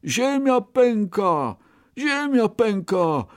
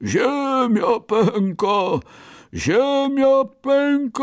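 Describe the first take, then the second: First: High, drawn-out cry of alarm; rabbit's cry. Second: Drawn-out, high-pitched bear bellow; booming bear cry. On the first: Scared rabbit calls back to his friend, crying out. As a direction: call it out high and slow. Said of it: "krzyknął". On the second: Bear charges ahead warning everyone, drawling booming cry. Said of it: "rozwlekłym, tubalnym, niedźwiedzim głosem". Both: A narrator's reading.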